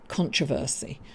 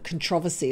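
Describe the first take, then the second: First: It is pronounced the way people here say it. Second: It is pronounced the way English people say it. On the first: "Over here they say controversy" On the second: "I almost said controversy, like we say in England"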